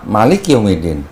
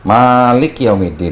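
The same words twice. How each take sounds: First: The first vowel of Malik is kept short. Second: The first vowel of Malik is drawn out long. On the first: It means king. "satu pendek" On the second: It means ruler. "satu panjang"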